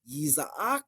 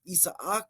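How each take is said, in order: First: The word begins with a y sound. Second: The word begins with a plain vowel. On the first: "You can do the Y sound like ye" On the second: "or just do the E"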